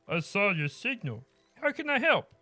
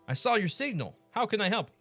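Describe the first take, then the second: First: It is spoken in a put-on character voice. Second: It is read in the speaker's ordinary voice.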